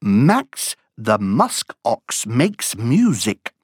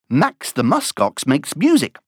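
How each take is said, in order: First: The phrase is spoken at a moderate pace. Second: The phrase is spoken at a fast pace.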